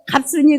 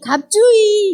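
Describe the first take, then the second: First: The second syllable is pronounced with an s sound. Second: The second syllable is pronounced with a j sound. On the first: This is the name as originally given. The speaker calls it right. "제가 갑순이 그랬는데" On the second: This is how the locals say the name. The speaker calls it wrong. "현지인들은 갑순이를 발음을 못해요"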